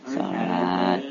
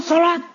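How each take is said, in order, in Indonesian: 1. Kata itu diucapkan dengan volume dan nada biasa. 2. Kata itu diucapkan dengan keras dan nada tinggi. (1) "bisa dengan intonasi yang biasa" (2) "karena intonasinya tinggi, ... volumenya tinggi"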